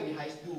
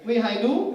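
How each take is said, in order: First: Said in the usual way. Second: "Wie hai du" with endings dropped; mock Vietnamese-accented German question; bad Vietnamese-accented German. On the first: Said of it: "maksudnya wie hai du maksudnya". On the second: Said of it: "maksudnya wie hai du". (bahasa Jerman berlogat Vietnam)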